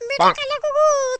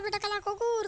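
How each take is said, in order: First: Slow, high, loud hammed-up wail; wife begging husband not to leave, wailing; mock wailing. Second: Said in the usual way. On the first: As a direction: drag it out in a fake sob.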